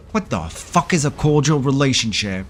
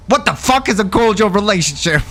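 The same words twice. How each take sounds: First: Said in the usual way. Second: High-pitched acted outrage; worked-up, incredulous retelling; indignant retort. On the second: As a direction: throw the question back at him in disbelief.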